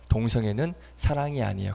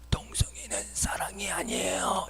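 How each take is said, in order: First: It is said in the speaker's natural voice. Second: It is said in an imitated, put-on voice.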